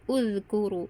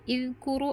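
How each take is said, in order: First: The word begins with a u vowel. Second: The word begins with an i vowel. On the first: The speaker calls it right. "tapi uzkuru" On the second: The speaker calls it wrong. "bukan izkuru"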